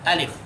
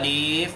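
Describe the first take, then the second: First: The vowel is kept short. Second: The vowel is drawn out long. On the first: The speaker calls it right. "tidak panjang" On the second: The speaker calls it wrong. "nggak boleh"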